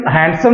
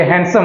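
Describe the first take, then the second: First: हैंडसम with the d sounded, "hand-sum"; हैंडसम as "hand-some", d pronounced; wrong pronunciation. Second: हैंडसम with a silent d, "han-sum"; हैंडसम spoken "han-sum", d dropped; correct pronunciation. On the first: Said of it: "हैंडसम नहीं होता है". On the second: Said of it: "ये हैंडसम होता है". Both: Shown as a demonstration.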